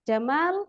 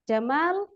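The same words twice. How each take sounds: First: The second vowel is held long. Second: The second vowel is held long.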